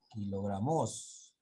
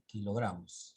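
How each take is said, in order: First: Slow "kilogramos" stressed on MOS; deliberately misplaced stress on the final syllable of "kilogramos"; stress on last syllable. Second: "kilogramos" with the weight on gra, falling after it; stress on GRA. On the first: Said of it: "Cuando la mayor fuerza de voz está en la última sílaba". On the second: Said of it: "se dice así". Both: Shown as a demonstration.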